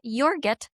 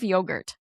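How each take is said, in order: First: The word is said in a childlike, altered way. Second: The word is said in the standard way. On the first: This is how a young child said it. The speaker calls it wrong. "my child said was yogurt" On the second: This is the usual way to say it. The speaker calls it right. "instead of yogurt"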